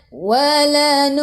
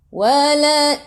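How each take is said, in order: Both takes have the same delivery.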